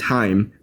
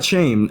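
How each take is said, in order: First: The name begins with a plain h sound. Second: The name begins with a sh sound. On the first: The speaker calls it right. "It's Chaim or" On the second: The speaker calls it wrong. "not shame"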